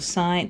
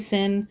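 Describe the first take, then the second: First: It is said like the word sign. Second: It is said like the word sin. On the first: The speaker calls it right. "So sine" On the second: The speaker calls it wrong. "don't say sin"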